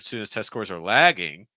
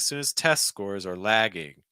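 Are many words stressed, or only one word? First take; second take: one; many. First: Only one word in the sentence carries strong stress. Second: Many words in the sentence carry strong stress. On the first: The speaker calls it right. "I would probably just pick one" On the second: The speaker calls it wrong. "it kind of sounds like"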